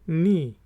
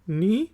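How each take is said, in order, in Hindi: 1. शब्द सीधे n की ध्वनि से शुरू होता है। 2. शब्द सीधे n की ध्वनि से शुरू होता है।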